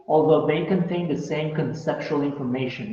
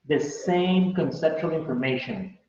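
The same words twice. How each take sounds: First: Said in the usual way. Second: Slow, leaning on the word "same"; teacher repeating it, hitting "same" slowly; stress on same. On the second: Shown as a demonstration. Teacher repeats to students, stressing "same" slowly. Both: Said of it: "You see".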